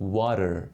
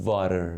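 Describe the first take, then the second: First: The word begins with a w sound. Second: The word begins with a v sound. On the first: The speaker calls it right. "میگید water" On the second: The speaker calls it wrong. "نمیگید water"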